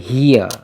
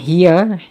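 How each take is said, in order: First: The h sound is thick and heavy. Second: The h sound is thin and light. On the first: The speaker calls it right. "Dia kena baca ha dengan bunyi dia tebal" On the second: The speaker calls it wrong. "Bukan hiya"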